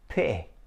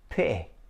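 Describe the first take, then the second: First: The middle T is cut off sharply. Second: The middle T is cut off sharply.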